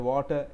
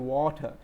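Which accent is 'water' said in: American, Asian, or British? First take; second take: Asian; British. First: It is said in an Asian accent. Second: It is said in a British accent. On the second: "people say water in U K"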